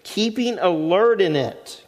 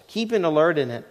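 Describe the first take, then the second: First: Slow, each word weighted, stress on alert; slow emphatic reading. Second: Said in the usual way. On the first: Shown as a demonstration. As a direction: read it out slowly, leaning on alert. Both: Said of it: "this is how you're to do it".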